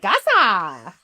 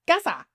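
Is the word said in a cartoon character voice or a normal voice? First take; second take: cartoon voice; normal voice. First: It is said in a put-on cartoon voice. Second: It is said in an ordinary speaking voice.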